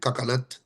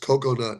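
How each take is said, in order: First: The first syllable sounds like 'ca'. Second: The first syllable sounds like 'co'. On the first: It imitates a family member's mispronunciation. The speaker calls it wrong. "make fun of my mom for saying cacanut" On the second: It is the standard pronunciation. The speaker calls it right. "it's coconut"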